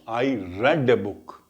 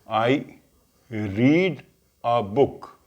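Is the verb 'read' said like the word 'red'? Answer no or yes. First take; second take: yes; no. First: The verb sounds like the word 'red'. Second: The verb does not sound like 'red'. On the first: The reading happened in the past. "if it is past tense, you have to pronounce" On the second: The reading happens now or habitually. "This is present tense"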